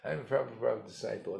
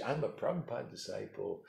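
First: The same brag "I'm a Prabhupada disciple" rattled off fast; quicker boastful repeat. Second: Boastful mock disciple. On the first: Retold or imitated. Guru mocking a boaster, repeating the brag fast. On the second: Guru mocking a boaster, the first showy claim. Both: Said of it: "hey, isn't that impressive?".

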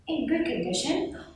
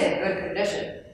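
First: Soft, higher "In good condition" with a rising end; "In good condition" lifted at the end, asking; questioning echo. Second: Said in the usual way. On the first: A narrator's reading. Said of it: "Leonardo asked".

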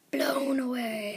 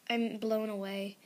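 First: Whispering. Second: Said in the usual way. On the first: Real, not acted.

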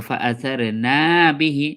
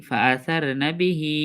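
First: ফাআসারনা বিহি with long না, short হি; wrongly lengthened না. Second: ফাআসারনা বিহি with short না, held হি; correct elongation. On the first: Teacher showing the habitual mistake, wrongly lengthened syllable. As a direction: stretch the না of ফাআসারনা, then quick বিহি. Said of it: "সার না পড়লে এটা ভুল হয়ে যাবে". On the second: Teacher showing students the right stretch, correct elongation. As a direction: keep না brief and stretch the final হি of বিহি. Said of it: "হায়ে টান দেবো আমরা এক আলিফ". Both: Shown as a demonstration.

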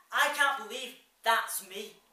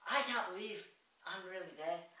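First: Loud, slow cry of disbelief; emphatic disbelief. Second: Said in the usual way. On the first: Acted. Man at the mirror disowns his reflection, loud and slow. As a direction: drag it out loudly, stunned.

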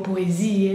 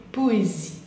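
First: "poesía" as French poésie with the last e wrongly sounded; wrong French "poesía", ending zi-e; final E pronounced. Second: "poésie" ending cleanly on zi; silent final E. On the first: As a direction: add an extra e after the zi in "poesía". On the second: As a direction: stop "poésie" on the i, no e after it. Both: Shown as a demonstration. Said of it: "la E final no la pronunciamos".

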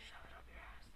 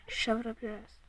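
First: Hissed taunt, barely voiced; whisper. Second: Said in the usual way. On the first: Real, not acted. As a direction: whisper the taunt so only he hears.

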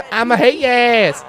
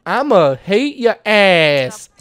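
First: Higher, breaking into a laugh; giggling through the tough line; laughing threat. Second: Slow, drawn-out gangster threat; hammed-up mob boss growl; mock tough threat. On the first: Pretend. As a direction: crack up mid-threat. Repeat of Don's threat, laughing. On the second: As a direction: drag it out to menace him. Voicing Don's rude threat.

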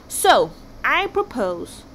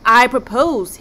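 First: Drawn-out, very slow propose; slow dramatic build-up. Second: "I propose" punched out loud with stress on "I"; loud emphatic restart. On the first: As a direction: stretch each word as if unveiling genius. King builds to his plan. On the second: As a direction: hit "I" hard to seize the room. King repeats proposal loudly. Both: Acted.

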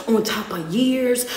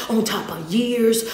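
Both takes have the same delivery.

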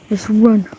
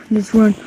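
Both takes have the same delivery.

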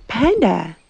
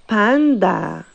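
First: "Panda" said the English way; English pronunciation. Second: "panda" said the Spanish way; Spanish pronunciation. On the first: Teacher models the word for children, English pronunciation of "Panda". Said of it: "En inglés se dice panda". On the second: Teacher shows children how we say it, Spanish pronunciation of "panda". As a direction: say "panda" with open Spanish a vowels. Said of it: "In Spanish, we say". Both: Shown as a demonstration.

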